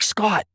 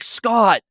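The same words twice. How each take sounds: First: The name is said at a normal, quiet volume. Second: The name is said very loudly, almost yelled.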